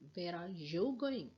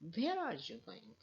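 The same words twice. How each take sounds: First: The stress falls on the word you. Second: The stress falls on the word where. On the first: The question is about the person addressed. "means the person who is in front of me" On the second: The question is about the place. "I want to put where, the place"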